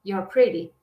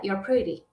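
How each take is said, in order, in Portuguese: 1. 'You are' é comprimido em uma única sílaba. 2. 'You are' é comprimido em uma única sílaba.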